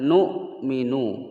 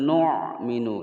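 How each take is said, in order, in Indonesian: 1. Konsonan tengahnya adalah hamzah biasa. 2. Konsonan tengahnya adalah bunyi ain yang berat di tenggorokan. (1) "Ini adalah huruf hamzah, bukan huruf ain. Jadi membacanya adalah nu'minu" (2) "bukan nu'minu ya"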